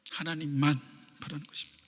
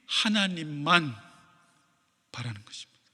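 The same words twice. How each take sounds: First: A breathy whisper, barely audible. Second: Hushed. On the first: Preacher echoing the point to the congregation, whispered. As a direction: whisper it as the closing echo. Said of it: "repeated as a whisper". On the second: Preacher slowing to drive home the point, hushed. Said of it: "repeated, hushed at the end". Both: Shown as a demonstration.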